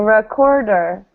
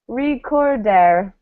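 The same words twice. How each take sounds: First: Both unstressed E vowels are reduced to uh. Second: Both unstressed E vowels are fully pronounced. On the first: The speaker calls it right. "you hear it twice. Recorder. Right at the beginning and at the end" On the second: The speaker calls it wrong. "Really pronouncing the E's"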